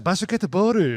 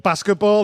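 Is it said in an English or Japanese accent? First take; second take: Japanese; English. First: It is said in a Japanese accent. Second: It is said in a plain English accent.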